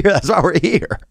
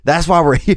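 First: Lightly voiced old man, higher, clean take; old dude. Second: Put-on old man voice breaking into a laugh; laughing in character. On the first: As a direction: hold the old guy voice steady. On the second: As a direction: crack up mid-impression. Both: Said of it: "we get rid of old dude".

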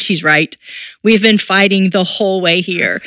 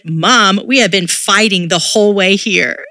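First: Said in the usual way. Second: Daughter calling out mom, a touch louder; a hint of a blunt eight-year-old, loud. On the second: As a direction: filha falando alto e direta com a mãe. Daughter voiced in story.

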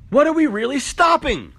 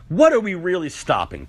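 First: What are we really stopping pushed higher and louder; escalating rhetorical demand; louder repeat. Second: Said in the usual way. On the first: Acted. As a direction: hit the repeat harder.

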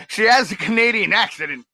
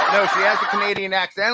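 First: "accident" said in place of "accent" with a laugh, "ak-si-dent"; slip of the tongue. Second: "accent" said properly as "ak-sent", quickly and laughing; correcting himself. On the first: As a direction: catch yourself saying "accident" and laugh at it. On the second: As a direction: laugh it off and say "accent" right this time. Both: Real, not acted.

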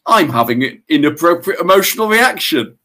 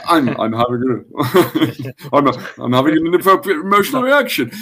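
First: That voice. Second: Breezy, laughing self-talk, stumbling then quick; light and friendly, chuckling through it; normal charming voice. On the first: Retold or imitated. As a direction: spell it out like a detached therapist. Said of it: "please tell me you use that voice". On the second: Shown as a demonstration. Showing cohost how he really says it, laughing and charming. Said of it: "I use my normal, charming voice".

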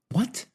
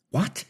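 First: Very high, pleading What; imploring. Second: Sharp high startled What; exclaimed. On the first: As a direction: beg to know, voice leaping up. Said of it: "implored Teebs". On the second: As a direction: blurt it out in shock. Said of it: "exclaimed Teebs". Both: A narrator's reading.

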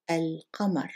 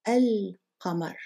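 First: Said in the usual way. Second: Al-qamar said slowly, each sound careful; slow model word. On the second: Shown as a demonstration. Arabic teacher modelling moon word slowly. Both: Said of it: "Let's look at the word for moon".

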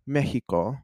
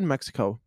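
First: "Mexico" as MEH-hee-koh; Spanish pronunciation. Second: "Mexico" with an English "ks" in the middle; English pronunciation. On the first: Correcting own slip, "Mexico" said in Spanish, MEH-hee-koh. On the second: Correcting own slip, "Mexico" said the English way, MEK-si-koh. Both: Real, not acted. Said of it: "I don't know why I said Mexico".

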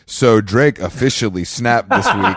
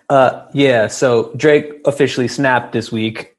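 First: Slow, flat news read; deadpan newsreader. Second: Stiff prompter read. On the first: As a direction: read it like a bored host. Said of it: "repeats the prompter line". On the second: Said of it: "reading the prompter". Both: Retold or imitated.

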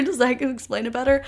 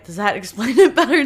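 First: Said in the usual way. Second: Laughing mid-question, "does that explain it better?" with a giggle. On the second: Real, not acted. Host asking listeners through a laugh.

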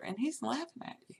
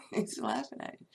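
First: Said in the usual way. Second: Low, weighty echo of the line; low repeat. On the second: Shown as a demonstration. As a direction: repeat it much lower, falling.

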